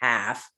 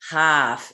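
First: The vowel is plain, in a standard accent. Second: The vowel is broad, in a Boston accent. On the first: This is how it is usually said. "instead of half" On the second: This is how the woman herself says it. "she has a heavy Boston accent. Like, she says half"

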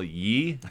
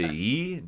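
First: The word starts with a y sound. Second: The word starts with a plain vowel. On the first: This is the original form of the expression. "I think it was original ye" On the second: This is a later form that came from laziness. "it just went to e just because of laziness"

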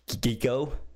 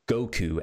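First: The name is said with changed vowels. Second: The name is said with its usual vowels. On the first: The speaker calls it wrong. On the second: The speaker calls it right.

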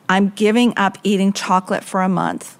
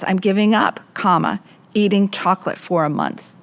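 First: It runs on without a break after 'giving up'. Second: It breaks after 'giving up' before the rest. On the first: The speaker will stop eating chocolate for a month. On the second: The speaker quits trying and eats chocolate for a month. "I'm giving up, comma"

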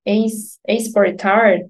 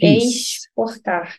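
First: It is said with a São Paulo accent. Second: It is said with a Rio de Janeiro accent. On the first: "I think they would say Esportar" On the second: "you're speaking with an accent from Rio"

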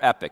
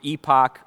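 First: The second syllable sounds like 'ick'. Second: The second syllable sounds like 'ock'. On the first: This is the usual pronunciation in the speaker's country. "in our country, it's most likely pronounced epic" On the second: This is the United Kingdom pronunciation. "I'm going to use the United Kingdom pronunciation of epoch"

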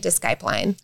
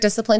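First: The word is sounded out as it is spelled. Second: The word is said with its usual pronunciation. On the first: "in my mind, I'm thinking discipline" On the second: "every time you hear discipline today"

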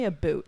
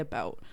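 First: The vowel sounds like the one in boot. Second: The vowel sounds like the one in out. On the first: The speaker calls it wrong. "we don't say a boot. That's so, like, weird and random" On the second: The speaker calls it right. "We say about"

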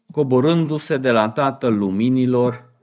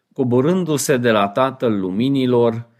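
Both takes have the same delivery.

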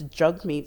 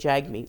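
First: The first syllable rhymes with hug. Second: The first syllable does not rhyme with hug. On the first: The speaker calls it right. "I found out that it's Jagmeet Singh" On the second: The speaker calls it wrong. "I was saying Jagmeet Singh because that's how it phonetically looks"

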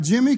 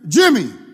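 First: It is said in a casual, mild tone. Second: It is said in a firm, commanding tone.

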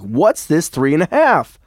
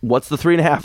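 First: It is said in a put-on voice. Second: It is said in his normal voice.

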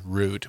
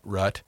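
First: The vowel is a long oo sound. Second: The vowel is not an oo sound. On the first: The speaker calls it right. "the proper pronunciation is root with an oo sound in there" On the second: The speaker calls it wrong. "not rut, or however you say it"

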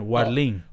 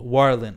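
First: The name is said with a Spanish accent. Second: The name is said with an English accent. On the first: "Let me say it with the accent" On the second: "I mean, but in Spanish"

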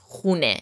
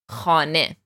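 First: The first vowel is an 'oo' sound. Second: The first vowel is an 'ah' sound. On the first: This is the colloquial Tehrani form. "in the Tehrani accent, for example, it's khune" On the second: This is the literary form used in the poem. "the word for house in the poem"

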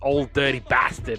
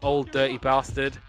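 First: The name is said in an American accent. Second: The name is said in an English accent. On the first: The speaker calls it right. "It's [name]" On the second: The speaker calls it wrong. "I'm so English, oh my god"

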